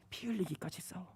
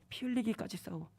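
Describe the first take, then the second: First: Breathy whisper of the command. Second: Said in the usual way. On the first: Acted. God whispering to the believer, hushed. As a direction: hush it like a secret order. God's answer, whispered then repeated.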